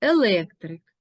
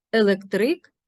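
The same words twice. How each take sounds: First: Електрик as еЛЕКтрик; stress on second syllable. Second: Електрик as електРИК; stress on last syllable. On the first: Teacher naming the profession, електрик stressed on ЛЕК. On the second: Teacher naming dark blue cloth, електрик stressed on РИК. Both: Shown as a demonstration. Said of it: "Порівняємо".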